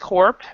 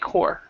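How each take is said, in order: First: The word ends with an audible P sound. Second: The word ends with no P sound. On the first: "some people will pronounce the P" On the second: "I don't actually pronounce the P"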